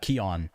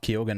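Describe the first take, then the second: First: The name is said without a middle 'g' sound. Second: The name is said with a middle 'g' sound. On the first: The speaker calls it right. "I think it's uh, Keon" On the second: The speaker calls it wrong. "it's actually not Keoghan"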